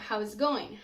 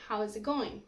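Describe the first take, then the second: First: The words are smashed together into one reduced chunk. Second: The words are smashed together into one reduced chunk.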